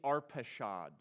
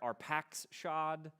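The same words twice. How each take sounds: First: The middle of the name has no ks sound. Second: The middle of the name has a ks sound. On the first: "I think that's how you say it" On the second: "Some translations have an X in there"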